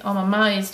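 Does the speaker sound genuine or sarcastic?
sarcastic. It sounds mocking and sarcastic. The speaker is actually unimpressed. The speaker calls it wrong. "or sarcastically I'm amazed"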